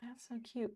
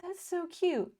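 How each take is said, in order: First: Softer. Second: Gushing. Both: Real, not acted. Gushing over viewer message.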